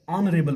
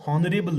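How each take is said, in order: First: ऑनरेबल with a silent H, starting on O; ऑनरेबल starting straight on the O sound; correct reading. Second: हॉनरेबल with a sounded H; हॉनरेबल with the H sounded, the wrong way; wrong reading. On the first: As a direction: drop the H in ऑनरेबल. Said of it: "यहाँ पे ऑनरेबल पढ़ते हैं". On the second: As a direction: pronounce the H in हॉनरेबल. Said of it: "हम हॉनरेबल नहीं पढ़ते". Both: Shown as a demonstration.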